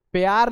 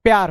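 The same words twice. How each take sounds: First: "प्यार" split as pe-yaar; wrong pyaar. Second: "प्यार" with a quick clipped py cluster; correct pyaar. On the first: Teacher showing pupils the wrong pe-yaar. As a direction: stretch "प्यार" into two full syllables pe-yaar. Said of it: "प्यार नहीं होता है". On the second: Teacher giving pupils the correct quick pyaar. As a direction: say "प्यार" with the p swallowed fast into y. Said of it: "प्यार होता है". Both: Shown as a demonstration.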